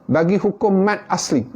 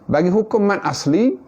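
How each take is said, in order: Both takes have the same delivery.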